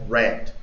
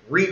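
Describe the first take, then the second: First: The word has a short 'e' vowel. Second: The word has a long 'ee' vowel. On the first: It is the past tense. "el pasado se pronuncia red, como rojo" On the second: It is the present tense. "Read, leer"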